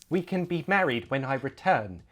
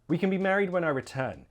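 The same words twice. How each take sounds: First: Each word is said separately and carefully. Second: The words run together with reduced vowels. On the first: The speaker calls it wrong. "I'm exaggerating" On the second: The speaker calls it right. "more naturally, Smush those words together"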